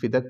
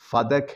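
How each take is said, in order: First: The first syllable has an 'i' vowel. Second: The first syllable has an 'a' vowel. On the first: The speaker calls it wrong. "फ़ा के नीचे ज़ेर बोलता है। ... फ़िदक कोई लफ़ज़ नहीं" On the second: The speaker calls it right. "सही लफ़ज़ फ़दक है। फ़ा पर भी ज़बर, दाल पर भी ज़बर।"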